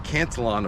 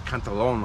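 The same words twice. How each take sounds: First: The name is said in an anglicized way. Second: The name is said in its original-language way.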